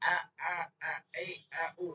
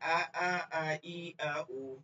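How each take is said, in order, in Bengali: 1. স্বরবর্ণগুলো জোর দিয়ে বলা হয়। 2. স্বরবর্ণগুলো জোর ছাড়া, সাধারণভাবে বলা হয়। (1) "এরকম চাপ দিয়ে পড়বেন না" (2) "নরমাল বলেন"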